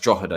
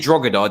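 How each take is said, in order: First: The G sound in the middle is silent. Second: The G sound in the middle is pronounced. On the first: The speaker calls it right. "You don't pronounce the G" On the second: The speaker calls it wrong. "if you say Drogheda, they will rinse you"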